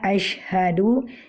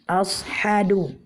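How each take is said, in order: First: The second consonant is a 'sh' sound. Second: The second consonant is an 's' sound. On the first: The speaker calls it right. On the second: The speaker calls it wrong.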